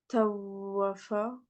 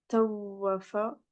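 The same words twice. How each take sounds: No difference in how they are said.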